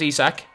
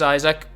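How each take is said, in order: First: It sounds different from the usual English name. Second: It sounds like the usual English name Isaac. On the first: The speaker calls it right. "it is pronounced Isaac" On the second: The speaker calls it wrong. "stop saying it's Isaac. Well, it's spelled Isaac, so it's very, very understandable"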